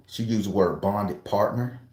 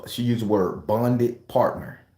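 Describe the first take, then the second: First: Said in the usual way. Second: "bonded partner" drawn out slowly, each word weighted; slowed, mocking emphasis on "bonded partner"; slow stress on bonded partner. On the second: Shown as a demonstration. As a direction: lean slowly into "bonded partner" like a strange term.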